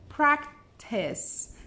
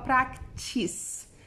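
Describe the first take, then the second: First: The final syllable sounds like the end of 'test'. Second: The final syllable does not sound like 'test'. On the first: The speaker calls it right. "é practice, test" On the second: The speaker calls it wrong. "Você não fala practice"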